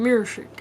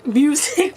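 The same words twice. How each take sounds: First: "music" said as "mur-shick"; regional pronunciation. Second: "Music" with a clear "myoo" opening; Q-sound pronunciation. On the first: Retold or imitated. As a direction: turn the s of "music" into sh. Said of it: "The people who say music". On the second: Shown as a demonstration. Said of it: "but with, like, a Q in it".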